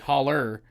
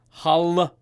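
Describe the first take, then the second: First: The word ends in a heavy 'er' sound. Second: The word ends in an open 'ah' sound. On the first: "if you say it properly, holler er is the accent" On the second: "l is the accent"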